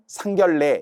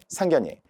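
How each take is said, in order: First: The last syllable starts with an l sound. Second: The last syllable starts with n, keeping ye. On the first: The speaker calls it wrong. "잘못 발음하면 상견례 이러면 안 된다는 거죠" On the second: The speaker calls it right. "이중모음을 말한다면 상견예 백 번도 더 해야 돼요"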